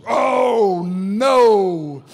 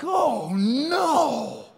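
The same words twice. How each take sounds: First: Loud, drawn-out bellow; mock horror. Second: High, drawn-out wail of dismay; mock dread. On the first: Big man squeezing into the middle seat, mock horror. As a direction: bellow it long in comic dismay. Squeezing down between two men. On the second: Two seatmates seeing a big man arrive, mock dread. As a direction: groan it out high in comic horror.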